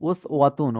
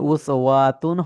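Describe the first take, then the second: First: The 'wa' vowel is kept short. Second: The 'wa' vowel is drawn out long. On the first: The speaker calls it right. "ওয়াউতে টান নেই" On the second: The speaker calls it wrong. "হবে না"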